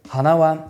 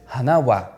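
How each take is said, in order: First: The particle wa keeps the high ending pitch. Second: The particle wa drops below the ending pitch. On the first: The speaker calls it wrong. "We did not say" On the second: The speaker calls it right. "we said ... the ending pitch of our Odaka word hana does not match the pitch of the following particle"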